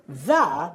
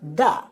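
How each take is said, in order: First: The word begins with a th sound. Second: The word begins with a d sound.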